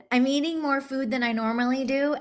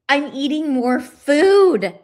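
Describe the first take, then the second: First: Said in the usual way. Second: Slow, louder "I'm eating more food" with "food" leaned on; emphatic disbelief. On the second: Real, not acted. Amazed she eats more.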